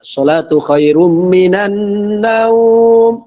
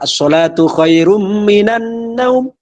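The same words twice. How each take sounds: First: The last word's vowel is drawn out long. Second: The last word's vowel is cut short. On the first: "rata-rata di Indonesia kan dipanjangkan" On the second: "Kan pendek toh"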